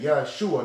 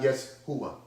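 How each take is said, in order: First: The middle consonant is a 'sh' sound. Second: The middle consonant is an 's' sound. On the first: The speaker calls it right. "it's Shah" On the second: The speaker calls it wrong.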